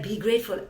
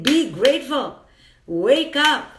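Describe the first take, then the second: First: A dutiful, lifeless be grateful; limp be grateful. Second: Louder, punchy be grateful; a rousing be grateful, wake up; urgent wake-up call. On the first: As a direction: say it like a hollow greeting card. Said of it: "I'm not saying it like". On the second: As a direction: shake them awake with it. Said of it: "I'm saying". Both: Shown as a demonstration.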